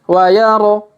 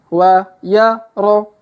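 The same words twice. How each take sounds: First: The syllables are read quickly in succession. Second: The syllables are read slowly and separately. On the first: "Kalau dipercepat" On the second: "kita baca pelan-pelan"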